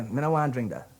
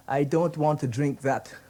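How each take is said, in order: First: Guyanese Creole demo, clipped to "Me no want drink that"; casual Guyanese country speech. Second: Said in the usual way. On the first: Shown as a demonstration. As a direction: say it like the sugar belt folk of Guyana. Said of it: "You say". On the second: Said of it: "Let me give you an example".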